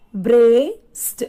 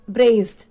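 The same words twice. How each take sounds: First: BRACED pulled apart, long "brace", then a separate final "d"; "Braced" broken up for learners, first part drawn out loud; split into two syllables. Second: Said in the usual way. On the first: Shown as a demonstration. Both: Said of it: "so two syllable here".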